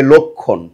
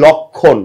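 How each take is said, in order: First: লক্ষণ with a rounded "lokkhon" first vowel; লক্ষণ demonstrated correctly as "lokkhon"; correct pronunciation. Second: লক্ষণ with an open "lɔkkhon" first vowel; লক্ষণ demonstrated wrongly as "lɔkkhon"; wrong pronunciation. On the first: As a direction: say লক্ষণ as "lokkhon", lower in pitch. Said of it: "হবে লক্ষণ". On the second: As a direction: say লক্ষণ as "lɔkkhon", the common mistake. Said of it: "লক্ষণ কখনোই হবে না". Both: Shown as a demonstration.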